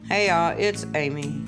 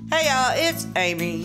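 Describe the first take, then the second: First: It is said with lower energy. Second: It is said with higher energy.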